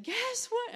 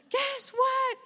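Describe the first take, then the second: First: Much higher eager guess what; rising thrilled question; excited. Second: Much higher and louder joyful cry; yelled guess what; all-caps shout. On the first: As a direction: lift it up with excitement. Reading a joyful text. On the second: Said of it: "exclamation marks, all caps". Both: Retold or imitated.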